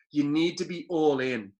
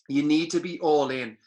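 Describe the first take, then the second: First: "You need to be all in", slow, each word weighed, leaning on "need"; slow emphasis. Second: "You need to be all in" again, louder and firmer; louder repeat. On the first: Telling the listener to commit, slow and deliberate. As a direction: lay out "all in" slowly, landing on "need". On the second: Hammering the point home to the listener, louder. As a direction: push "You need to be all in" out harder the second time. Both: Shown as a demonstration.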